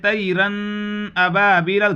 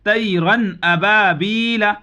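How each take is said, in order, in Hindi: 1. n को नाक की गुनगुनाहट के साथ रोका जाता है। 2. n साफ़ और जल्दी कहा जाता है, नाक की गुनगुनाहट के बिना। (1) "कोई ऐसे कह दे ... गलत हो जाएगा" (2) "इसको जाहिर करके गुन्ना नहीं करना है बल्कि जल्द पढ़ना है। जैसे"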